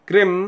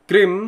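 Both takes have the same delivery.

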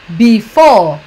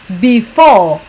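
The two takes are said the same way.

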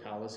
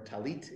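First: The word ends with an s sound. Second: The word ends with a t sound. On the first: This is the Yiddish form. "but talis in Yiddish pronunciation" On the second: This is the Hebrew form. "or talit in the Hebrew"

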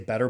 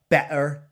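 First: It is said in an American accent. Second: It is said in an English accent with a glottal stop. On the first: "the way us Americans say it" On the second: "with an exaggerated, stereotypical English accent"

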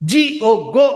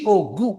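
First: The vowel is a long oh sound. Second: The vowel is a long oo sound. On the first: It is how the word is actually said. The speaker calls it right. "ಆಗಲ್ಲ, GO ಆಗ್ಬಿಡುತ್ತೆ" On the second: It follows the pattern of to and do. The speaker calls it wrong. "ಈ logic apply ಮಾಡಿದ್ರೆ GO ಆಗ್ಬೇಕು"

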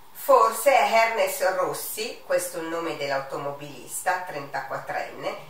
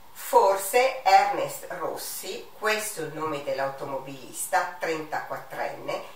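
The two takes are said the same way.

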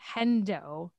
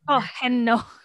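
First: The N sound comes before the D sound. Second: The D sound comes before the N sound. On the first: The speaker calls it wrong. "I said Hendo. I'm dyslexic" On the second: The speaker calls it right. "It's clearly Hedno"

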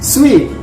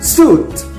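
First: The word sounds like 'sweet'. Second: The word sounds like 'suit'. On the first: The speaker calls it right. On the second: The speaker calls it wrong.

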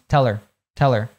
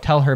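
First: The h drops and her links to tell. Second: The h of her is pronounced clearly.

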